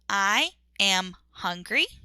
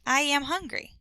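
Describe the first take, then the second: First: Each word is said separately and clearly. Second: The words are run together smoothly. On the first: The speaker calls it wrong. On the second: The speaker calls it right.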